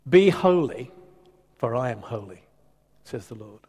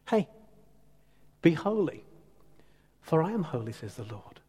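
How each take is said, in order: First: It sounds stern and threatening. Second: It sounds warm and generous.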